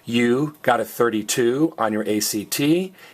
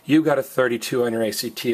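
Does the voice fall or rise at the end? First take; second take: rise; fall. First: The voice rises at the end. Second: The voice falls at the end. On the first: It asks whether this is so. "is a question" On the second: It states this as a fact. "is a statement"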